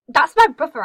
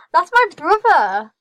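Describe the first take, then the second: First: Quick, loud, raised-pitch discovery; surprised exclamation. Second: Loud, high and drawn-out disbelief; astonished exclamation. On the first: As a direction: blurt it out loudly. Spots brother, surprised. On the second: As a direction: stretch it out, loud and amazed. Repeats it in growing disbelief. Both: Real, not acted.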